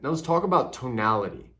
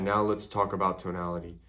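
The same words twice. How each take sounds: First: The word tonality is said with strong emphasis. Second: The word tonality is said flat, without emphasis. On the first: "I emphasized the word that I wanted your brain to process" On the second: "I didn't say"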